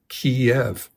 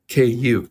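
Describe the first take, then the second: First: The name is said the Russian way. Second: The name is said the Ukrainian way. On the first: It is the form that passed into English via Russian. The speaker calls it wrong. "not Kyiv" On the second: It is the city's proper local name. The speaker calls it right. "The Ukrainian pronunciation is Kyiv, K like [name], Yiv"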